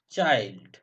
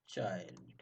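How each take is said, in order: First: Loud demo word. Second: Quiet repeat. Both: Shown as a demonstration.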